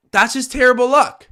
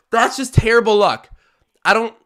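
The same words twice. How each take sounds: First: Exasperated outcry, higher. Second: Exasperated outcry. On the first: Repeats the lament even higher. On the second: Groaning at a bad-luck play. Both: Real, not acted.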